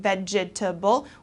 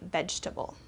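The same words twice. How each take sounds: First: Every syllable of the word is pronounced. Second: The word is shortened by dropping a syllable. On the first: The speaker calls it wrong. "Instead of saying vegetable" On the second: The speaker calls it right. "we kind of shorten it and say vegetable"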